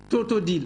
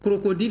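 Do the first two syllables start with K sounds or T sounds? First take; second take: T sounds; K sounds. First: The first two syllables start with T sounds. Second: The first two syllables start with K sounds. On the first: This is how children with a speech delay say it. The speaker calls it wrong. "ils disent totodile" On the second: This is the correct adult form. The speaker calls it right. "Au lieu de dire eh, crocodile"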